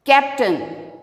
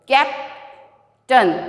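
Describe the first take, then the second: First: Said in the usual way. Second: "Captain" split into cap, tain; syllable by syllable. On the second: Shown as a demonstration. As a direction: clear pause between "cap" and "tain" in "Captain". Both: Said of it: "Now I am splitting the words".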